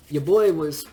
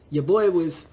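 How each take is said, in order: Both takes have the same delivery.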